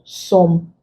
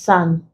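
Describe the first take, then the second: First: The vowel is a rounded 'o' sound. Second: The vowel is an open 'ah' sound. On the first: The speaker calls it wrong. "not what some" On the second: The speaker calls it right. "It is pronounced ah. This is san"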